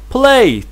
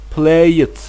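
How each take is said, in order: First: The ending adds no extra vowel syllable. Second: The ending adds an extra vowel syllable. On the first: The speaker calls it right. "we don't pronounce e sound. Uh, it's just like played" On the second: The speaker calls it wrong. "We can't pronounce it like play it"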